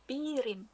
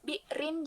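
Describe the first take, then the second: First: The glottal stop becomes a long vowel. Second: The word keeps a glottal stop inside it.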